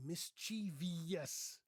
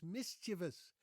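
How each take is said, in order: First: "mischievous" as mis-CHEE-vee-us; four-syllable "mischievous", mis-CHEE-vee-us; mispronounced mischievous. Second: "mischievous" as MIS-chuh-vus; three-syllable "mischievous", MIS-chuh-vus; correct mischievous pronunciation. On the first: Retold or imitated. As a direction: stress the middle of "mischievous" and add an extra syllable. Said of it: "Lots of people say". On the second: Shown as a demonstration. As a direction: stress the first syllable of "mischievous". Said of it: "stress is on the first syllable".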